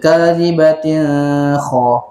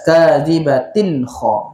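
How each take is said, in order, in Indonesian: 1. Bunyi n sebelum kha tersembunyi. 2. Bunyi n sebelum kha jelas. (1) "salahlah bacaan tu"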